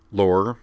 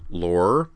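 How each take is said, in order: First: Mildly stern warning by name; severe. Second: The name drawn out with a warning rise; sterner warning. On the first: Captain checking his officer, severe. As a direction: say the name as a reprimand. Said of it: "said Griffin severely". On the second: Captain interrupting his officer's story, more severe. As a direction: cut him off with a stern name. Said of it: "said Griffin more severely". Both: A narrator's reading.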